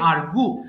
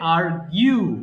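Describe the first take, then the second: First: The word ends with a plain 'goo' sound. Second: The word ends with a 'gyoo' sound. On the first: The speaker calls it wrong. "এটাকে আমরা ভুল করে উচ্চারণ করে ফেলি আর্গু" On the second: The speaker calls it right. "মানে এটা হবে আর্গিউ"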